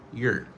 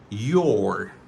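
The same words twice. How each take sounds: First: The word is said in a weak, reduced form. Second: The word is said in its full form.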